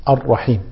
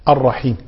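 Both takes have the same delivery.

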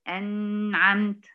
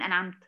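First: The n sound is held too long. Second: The n sound is cut very short. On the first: "ولا تزيد في زمن النون" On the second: "ولا تنقص في زمن النون"

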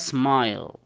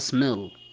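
First: The vowel is a long 'eye' sound. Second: The vowel is a short 'i' sound. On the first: The speaker calls it right. "تنطقها smile" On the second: The speaker calls it wrong. "ما تنطقها smil"

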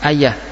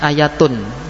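First: The word ends with an h sound. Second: The word ends with a full -atun ending. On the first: This is the usual pausal form. "kalau di waqaf ayah dibaca ha" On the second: This is the original full form. "asalnya ayatun"

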